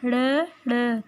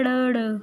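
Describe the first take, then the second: First: ड़ repeated as a sharp retroflex flap; ड़ modelled again as a retroflex flap; sound of ड़. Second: ड़ as a retroflex flap, tongue curled back and flicked; ड़ said as a crisp retroflex flap; sound of ड़. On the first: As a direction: curl the tongue and flap ड़ twice. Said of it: "क्या होती है?". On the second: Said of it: "रे की sound होती है". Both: Shown as a demonstration.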